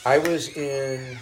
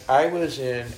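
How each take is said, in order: Both takes have the same delivery.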